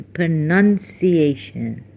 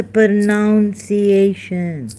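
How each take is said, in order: First: "pronunciation" with NUN, slow; corrected pronunciation. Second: "pronunciation" with OUN, drawn out; wrong pronunciation. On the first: Friend Libby telling the right way, slow correction. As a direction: say "pronunciation" slowly as pro-NUN-ciation. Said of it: "it's the pronunciation". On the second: Friend Libby mocking the wrong way, exaggerated mispronunciation. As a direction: stretch "pronunciation" as pro-NOUN-ciation, higher. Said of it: "it is not the pronunciation". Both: Retold or imitated.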